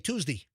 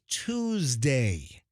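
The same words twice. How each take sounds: First: The word ends without a full 'day' sound. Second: The word ends with a full 'day' sound. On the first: The speaker calls it wrong. "there are some people say Tuesday ... a mispronunciation" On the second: The speaker calls it right. "I say Tuesday ... It's Tuesday, D A Y"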